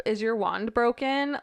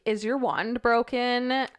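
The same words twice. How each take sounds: First: Reading the letter. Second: Put-on childish question. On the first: Retold or imitated. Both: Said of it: "I was like".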